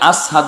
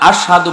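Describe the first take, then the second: First: The middle consonant is an 's' sound. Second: The middle consonant is a 'sh' sound. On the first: The speaker calls it wrong. "সিন উচ্চারণ হয়" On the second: The speaker calls it right. "Belal আশহাদু বলতে পারে না"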